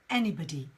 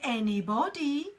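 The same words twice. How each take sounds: First: The last part has a schwa, like 'buddy'. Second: The last part has a full vowel, like 'body'. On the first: The speaker calls it right. "we say anybody. So that schwa sound again" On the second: The speaker calls it wrong. "we don't say anybody"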